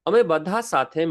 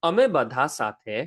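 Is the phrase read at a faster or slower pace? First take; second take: faster; slower. First: The phrase is read at a faster pace. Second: The phrase is read at a slower pace.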